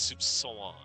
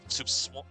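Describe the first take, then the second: First: The final vowel is said with nasalization. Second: The final vowel is said without nasalization. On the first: The speaker calls it right. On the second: The speaker calls it wrong.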